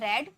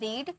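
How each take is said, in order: First: The vowel is short, like 'red'. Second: The vowel is long, like 'reed'. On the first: It is the past form of the verb. "इसकी pronunciation रेड में की जाती है" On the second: It is the present form of the verb. "First form रीड"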